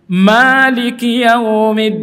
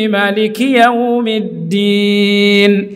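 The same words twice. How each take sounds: First: The first vowel of Maliki is drawn out long. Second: The first vowel of Maliki is kept short. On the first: This is the reading common in Indonesia and Asia. "ma-nya panjang" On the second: This is the reading used in Morocco. "Mereka tidak memanjangkan ma"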